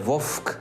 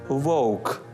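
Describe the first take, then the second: First: A hard consonant comes before the к. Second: A soft u-like glide comes before the к. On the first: The speaker calls it wrong. "Не вовк" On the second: The speaker calls it right. "треба вимовляти унескладовий перед приголосним"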